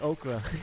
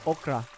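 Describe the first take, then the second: First: The word is said with an American accent. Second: The word is said with a Filipino accent. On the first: "I gotta say it like" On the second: "I could say it the Filipino way"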